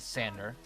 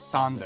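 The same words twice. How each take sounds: First: The name is said with its common pronunciation. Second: The name is said with its Dutch pronunciation. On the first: "the common pronunciation is Sander" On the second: "the real pronunciation, the Dutch pronunciation, is Sander"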